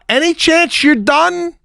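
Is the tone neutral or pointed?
pointed. It is said with a pointed, impatient tone. The asker is annoyed and wants it finished. "the way I heard that"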